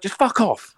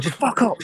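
First: High, hammed-up "Just fuck off." with "fuck" dropping down; imitating the wife snapping, "fuck" falling; mock furious wife. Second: High, hammed-up "Just fuck off." with a rise on "fuck"; imitating the wife snapping, "fuck" swept up; mock furious wife. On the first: Husband mimics his labouring wife dismissing him, mock angry. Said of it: "She's like". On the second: Husband mimics his labouring wife telling him off, mock angry. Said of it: "she's like".

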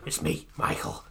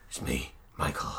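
First: Husky near-whisper; weird possessed voice. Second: Husky whispered ghost voice. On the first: Medium faking [name]'s ghost at a seance, husky whisper. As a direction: rasp it out, faking a dead star. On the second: Medium faking a possessed ghost, husky whisper. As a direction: rasp it out like a fake possessed medium. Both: Retold or imitated. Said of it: "in this weird voice".

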